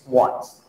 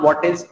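First: The words merge into one short syllable, what's. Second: Two full words, what and is, are pronounced. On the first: The speaker calls it right. "It's व्हाट्स" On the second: The speaker calls it wrong. "It's not व्हाट इज"

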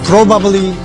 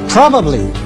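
First: The word is pronounced flat and reduced. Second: The word is pronounced in full.

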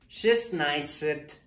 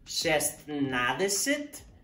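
First: The word is shortened, dropping middle sounds. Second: Every syllable of the full form is said. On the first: This is how it is actually spoken. "la manera al último de cómo se pronuncia" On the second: This is how it is written. "la manera escrita"

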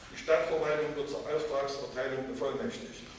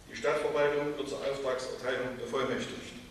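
Both takes have the same delivery.

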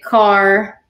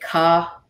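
First: A Southern accent with a hard R and drawn-out vowel. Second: A Northern accent with the R dropped.

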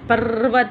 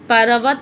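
First: The r is said bare without a vowel. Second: The r is followed by a full vowel. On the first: The speaker calls it right. "अ नहीं बोले हम, र से बोले" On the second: The speaker calls it wrong. "पर्वत नहीं होता"

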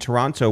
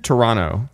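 First: The second T sound is clearly pronounced. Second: The second T sound is dropped. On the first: The speaker calls it wrong. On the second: The speaker calls it right.

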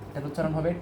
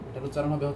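The two takes are said the same way.

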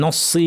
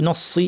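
No difference in how they are said.

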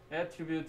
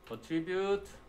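First: The stress is on the first syllable. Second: The stress is on the second syllable. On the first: A quality or characteristic of something. "앞에 강세가 오면은" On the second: To credit something to a cause. "뒤에 강세가 올 때"

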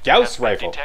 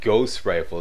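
First: The first vowel sounds like 'ow'. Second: The first vowel sounds like 'oh'. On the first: "It's pronounced Gauss Rifle" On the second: "the French way to pronounce the AU sound is O"

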